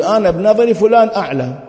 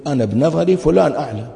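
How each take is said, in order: First: "فلان" stressed, the whole line higher and louder; emphatic model answer. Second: Said in the usual way. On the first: Shown as a demonstration. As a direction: spell out the right wording firmly, as a lesson. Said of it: "قول". (الجواب الصحيح بحزم وتأكيد على "فلان"، أعلى وأقوى) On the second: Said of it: "أنت وظيفتك تقول".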